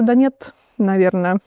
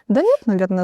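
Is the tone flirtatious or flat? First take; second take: flat; flirtatious. First: It is said in a flat, unflirtatious tone. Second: It is said in a playful, flirtatious tone. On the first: It actually means no. "то нет" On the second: It actually means yes. "с флиртом"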